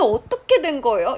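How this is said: It is asked in an angry, annoyed tone. The speaker is complaining and upset. "이렇게 화내는 뉘앙스 될 수 있어요"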